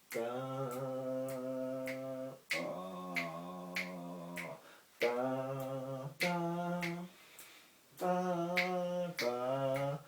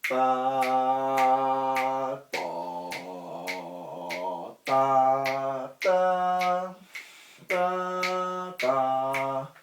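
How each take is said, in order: First: It is said softly and gently. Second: It is said loudly and strongly.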